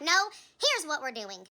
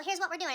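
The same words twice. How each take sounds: First: Slow, emphatic retold angry comeback; understated anger, each word leaned on; angry retort. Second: Said in the usual way. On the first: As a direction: push back firmly, drawing out the words. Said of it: "I was very angry in that moment". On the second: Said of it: "and she was like".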